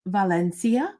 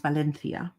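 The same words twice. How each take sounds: First: Said in the usual way. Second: Valencia with a lisped th for the c; Spanish pronunciation. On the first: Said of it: "the American way". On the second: Shown as a demonstration. Host correcting the color name, Valencia pronounced the Spanish way with th. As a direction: say Valencia as va-LEN-thee-a. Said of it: "It's actually pronounced Valencia".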